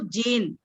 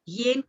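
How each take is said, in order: First: The word begins with a 'j' sound. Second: The word begins with a 'y' sound. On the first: This is the Vedic recitation form. "वेद भाषा में ज" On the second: This is the everyday classical form. "अगर हम लौकिक भाषा में बोलते हैं तो य"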